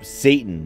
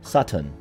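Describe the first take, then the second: First: It sounds like the English word Satan. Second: It sounds close to the word Saturn. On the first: The speaker calls it wrong. "You can't say" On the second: The speaker calls it right. "You have to say Satan. ... Sounds like Mister Saturn"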